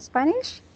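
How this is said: The voice rises at the end, like a question.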